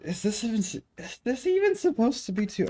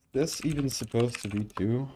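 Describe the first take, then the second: First: Exasperated disbelief. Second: Said in the usual way. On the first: Real, not acted. Exasperated at code.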